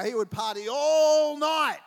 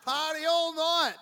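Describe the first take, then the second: First: Emphatic joke. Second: Emphatic punchline. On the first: Joking about brother's partying. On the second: Repeats brother's party punchline. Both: Real, not acted.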